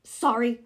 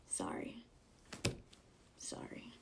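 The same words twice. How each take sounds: First: Imitated loud, snippy apology; mock her condescending apology at full volume. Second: Tiny whispered apology; whispered mock apology. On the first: Talker looking back at the one who shushed her, loud and condescending. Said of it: "super loud and condescending". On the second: Answering the rude moviegoer before taking it back, mock-apologetic whisper. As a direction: whisper it, not meaning it.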